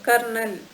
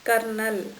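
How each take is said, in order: Both takes have the same delivery.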